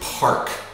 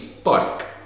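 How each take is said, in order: First: The first p has a strong puff of air. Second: The first p has no puff of air. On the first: Listeners hear the intended word. The speaker calls it right. "Just overdo the aspiration" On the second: Listeners hear it as a different word. The speaker calls it wrong. "don't say it like that"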